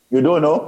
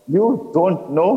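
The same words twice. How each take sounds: First: Said in the usual way. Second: Slow, mocking echo, pitched higher; mimicking. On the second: A narrator's reading. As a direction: throw his words back, drawn out. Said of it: "mimicking my earlier speech pattern".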